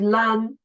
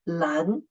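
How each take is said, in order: First: The syllable is said with a high level tone. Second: The syllable is said with a rising tone. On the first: The speaker calls it wrong. "The first tone should be 蓝" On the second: The speaker calls it right. "the second tone is correct"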